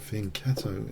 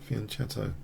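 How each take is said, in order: First: The middle consonant is hard, not a ch sound. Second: The middle consonant is a ch, like cello. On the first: "if you prefer that pronunciation" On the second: "I like the cello sound. Cello. Nice"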